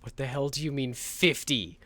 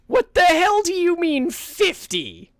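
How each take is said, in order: First: Said in the usual way. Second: Much higher, louder, slow incredulous yell; outraged shout. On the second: Shown as a demonstration. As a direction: scream it in disbelief.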